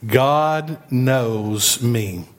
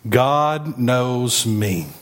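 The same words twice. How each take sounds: First: God knows me, even slower, stress on God; slower repeat. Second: God knows me, each word slowed, stress on God; slow call and response. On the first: Preacher repeating the line with the church, even slower. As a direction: draw it out for them to echo. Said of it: "Let's say that again". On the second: Preacher leading the church in a slow call and response. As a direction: lead the congregation slowly. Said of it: "Say it with me". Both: Shown as a demonstration.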